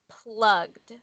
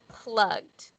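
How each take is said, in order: No difference in how they are said.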